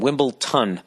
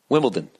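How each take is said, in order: First: The last syllable is said with a t sound. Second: The last syllable is said with a d sound. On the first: The speaker calls it wrong. "for years I've been saying Wimbledon. Yet yet another word that I've been mispronouncing. Uh, T O N" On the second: The speaker calls it right. "But it's Wimbledon, D O N"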